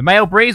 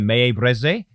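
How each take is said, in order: First: The name is said like English 'male breeze'. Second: The name is said with French vowel sounds.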